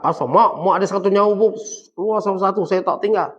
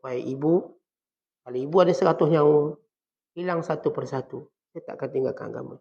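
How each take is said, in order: First: Loud mock defiance toward mother; wrong, defiant way. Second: Put-on respectful child's voice. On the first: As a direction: push it out loudly, like a rude child. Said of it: "Saat bukan cakap". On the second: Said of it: "Dia cakap dengan bahasa seorang anak".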